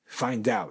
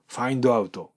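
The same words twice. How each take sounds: First: "find out" run together as fine-dout; English-style "find out", D joined to "out"; linked English pronunciation. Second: "find out" as fa-in-do a-u-to, unlinked; Japanese-style "find out" with added vowels; katakana English. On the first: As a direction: link "find out" into one word. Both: Shown as a demonstration. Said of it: "違いますよね".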